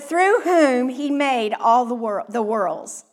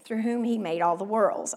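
First: It is read plainly, as part of the main sentence. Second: It is read lightly, like a casual offhand aside.

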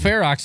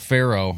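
First: The word ends with a 'ks' sound. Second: The word ends with an open vowel. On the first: The speaker calls it right. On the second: The speaker calls it wrong.

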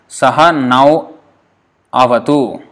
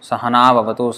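First: The words are kept separate, with 'nau' unchanged. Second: The words run together, with 'nau' becoming 'nav'.

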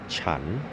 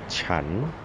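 The two takes are said the same way.

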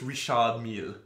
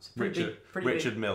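First: The name is said with a French pronunciation. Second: The name is said with an English pronunciation. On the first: The speaker calls it right. "isn't it French?" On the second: The speaker calls it wrong. "that's the most British pronunciation of that"

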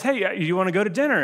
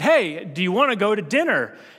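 First: It is asked in a calm, friendly tone. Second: It is asked in an annoyed, frustrated tone.

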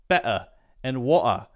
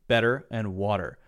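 First: The T is replaced by a complete stop. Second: The T is a quick, light D sound. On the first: This is another British way. "you also hear a complete stop sound" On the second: This is the typical American way. "Americans will say this very interesting thing called a light D sound"

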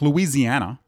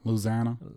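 First: It is said the way northerners say it. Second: It is said the way locals in Louisiana say it.

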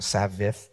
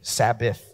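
First: The middle consonant sounds like a V. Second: The middle consonant is a clear B sound. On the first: The speaker calls it wrong. "not Sabbath. I feel like that came out like a V" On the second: The speaker calls it right.

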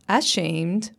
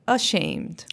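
First: The unstressed vowel is said as a full vowel. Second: The unstressed vowel is reduced to a schwa. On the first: "It's not ashamed" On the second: "but ashamed"

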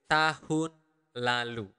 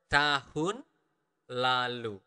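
First: The phrase is said at a normal pace. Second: The phrase is said slowly.

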